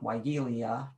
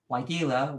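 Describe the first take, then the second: First: An extra ee sound comes before the end. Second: There is no extra ee sound before the end. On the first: The speaker calls it wrong. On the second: The speaker calls it right.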